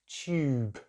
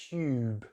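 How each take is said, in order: First: British accent, with a 'y' sound after the t. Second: British accent, with a 'y' sound after the t.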